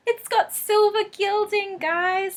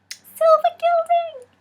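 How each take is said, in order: First: High, slow and delighted; excited. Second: High, loud, drawn-out squeal; excited squeal. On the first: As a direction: gush over it with glee. Delighted by new deck's gilding. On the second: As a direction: squeal the words with joy. Delighted by gilding. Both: Real, not acted.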